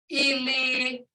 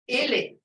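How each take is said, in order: First: The word is drawn out, not blunt. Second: The word is short and blunt. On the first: It means dead. "when it's talking about death" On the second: It means a foot. "Ili is short and blunt. It means a foot"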